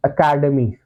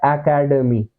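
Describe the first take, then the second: First: एकेडमी said "uh-KAA-duh-mee", long aa in the middle; usual Indian pronunciation. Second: एकेडमी said slowly "ae-KAE-de-mee", "cat" vowels; textbook pronunciation. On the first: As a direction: open एकेडमी on uh, then kaa. (एकेडमी को 'अकाडमी' जैसा बोलें) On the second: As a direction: stretch एकेडमी with ae in the first two syllables. (एकेडमी को धीरे 'ऐकैडेमी' बोलें) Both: Shown as a demonstration. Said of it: "ये भी होता है एकेडमी".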